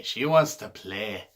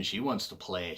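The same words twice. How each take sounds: First: Slow, louder, badly faked Scottish accent; mock Scottish accent, slow and loud; terrible Scottish accent. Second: Said in the usual way. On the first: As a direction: ham up a clumsy Scottish accent, drawing it out. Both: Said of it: "that terrible Scottish accent".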